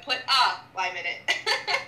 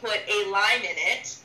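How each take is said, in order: First: The word 'a' is said 'ah', US style. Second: The word 'a' is said 'ay', Canadian style.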